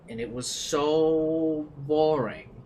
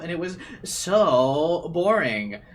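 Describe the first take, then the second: First: It is read in a plain, flat voice. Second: It is read in a lively teen girl voice. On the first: The speaker calls it wrong. "I couldn't read that with like I should have read that with like teen girl energy" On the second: The speaker calls it right. "Reread it"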